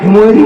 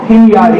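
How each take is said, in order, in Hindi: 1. बीच का अक्षर 'mo' जैसा सुनाई देता है। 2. बीच का अक्षर 'mya' जैसा सुनाई देता है। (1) "हिमोरी बोलते हैं आमतौर पे" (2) "सही तलफ़ुज़, सही मखरज जो है वो हिमयारी है"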